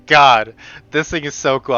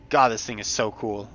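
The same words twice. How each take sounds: First: Excited. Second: Soft awe. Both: Real, not acted. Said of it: "I'm sorry, I'm so".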